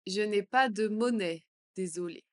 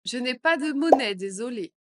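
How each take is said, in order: First: Said in the usual way. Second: Louder apology; louder take. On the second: Shown as a demonstration. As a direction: say it loud and clear. (plus fort) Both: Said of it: "phrase modelled twice".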